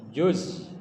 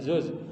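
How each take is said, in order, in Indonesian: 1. Kata itu diawali dengan bunyi j. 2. Kata itu diawali dengan bunyi z. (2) "bukan zuz"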